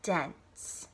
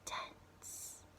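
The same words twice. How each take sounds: First: It is spoken in a normal voice. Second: It is whispered.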